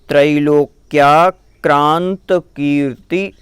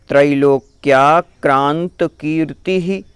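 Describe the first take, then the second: No difference in how they are said.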